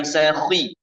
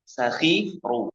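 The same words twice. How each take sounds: First: Sakhi with a light thin kh, shown as the error; wrong thin kh. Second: Sakhiru with a full thick kh, drawn out slowly; correct sakhiru. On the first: Teacher showing the thin-kh error in sakhi. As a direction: clip sakhi thin, as the mistake. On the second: Teacher modelling thick kh in sakhiru. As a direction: say sakhiru with the kh held heavy. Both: Shown as a demonstration. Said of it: "bukan sakhi".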